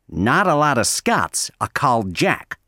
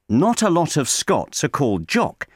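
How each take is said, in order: First: The O sounds are open like A, American style. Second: The O sounds are rounded, British style. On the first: The speaker calls it right. "pronounce that O sound like an A" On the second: The speaker calls it wrong. "do not say"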